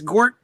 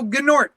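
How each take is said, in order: First: The N is dropped; it starts with G. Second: Both G and N are sounded together. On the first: "the N is silent" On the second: "but I go Gnort"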